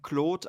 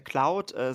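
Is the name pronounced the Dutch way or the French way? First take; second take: French; Dutch. First: The name is pronounced the French way. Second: The name is pronounced the Dutch way. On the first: This is how his parents say it. "seine Eltern nennen Claude" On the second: This is how people in the Netherlands say it. "In Holland sagen sie gerne Claude"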